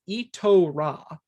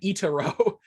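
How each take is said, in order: First: The T is followed by an o sound. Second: The T is followed by an a sound. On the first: The speaker calls it right. "It's Itora" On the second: The speaker calls it wrong. "I've been mispronouncing the title"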